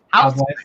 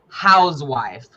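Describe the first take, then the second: First: The s in house sounds like an s. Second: The s in house sounds like a z. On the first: "it's housewife" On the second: "Instead of the S, he makes a Z sound. So he says housewife"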